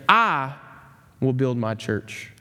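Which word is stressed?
I. The word "I" carries the stress.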